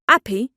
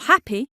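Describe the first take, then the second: First: The word starts without an h sound. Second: The word starts with an h sound.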